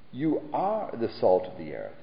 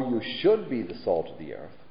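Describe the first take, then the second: First: "are" stressed with a firm falling tune; emphatic. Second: "should" leaned on, offered as the wrong wording; stress on should. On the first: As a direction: land hard on "are" and close it down. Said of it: "He said emphatically". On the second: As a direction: hit the word "should". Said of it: "Jesus didn't say". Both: Shown as a demonstration.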